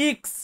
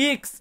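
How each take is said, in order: Both takes have the same delivery.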